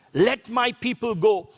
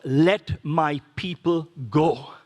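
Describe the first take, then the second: First: Said in the usual way. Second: Solemn proclamation. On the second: Retold or imitated. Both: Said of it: "the one-liner was".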